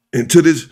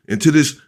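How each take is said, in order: Both takes have the same delivery.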